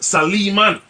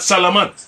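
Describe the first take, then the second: First: The name is said in the Arabic way. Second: The name is said in the usual English way. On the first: The speaker calls it right. "if you go into the Arabic language, ... it's Saliman" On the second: The speaker calls it wrong. "his name is not Salaman"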